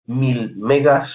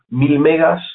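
First: Mil megas drawn out very slowly, each word weighed; slow emphasis. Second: Said in the usual way. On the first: Shown as a demonstration. Teacher stressing the storage fact to beginners, slowly. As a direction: spell out "mil megas" slowly so the class remembers it.

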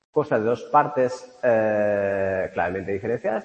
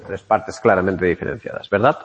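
First: Said in the usual way. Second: Quoting her own catchphrase with a wink; self-mocking catchphrase. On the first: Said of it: "mi tan usada frase". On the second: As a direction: lean on claramente, a bit louder, tongue in cheek. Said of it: "aquí nos corta mi tan usada frase de".

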